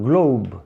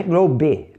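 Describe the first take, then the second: First: "globe" as one syllable, GLOHB, silent e; final B. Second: "globe" with the final e voiced, as GLO-bee; wrong final vowel. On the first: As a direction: end "globe" on the B, no vowel after. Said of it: "Fica o B final". ("globe" terminando no B, com E mudo) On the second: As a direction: add an extra syllable to "globe": GLO-beh. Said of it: "Não é globe". ("globe" com o E final pronunciado, "glôbi") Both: Shown as a demonstration.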